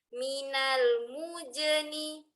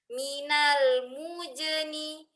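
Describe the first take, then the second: The two takes are said the same way.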